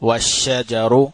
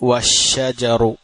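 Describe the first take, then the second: No difference in how they are said.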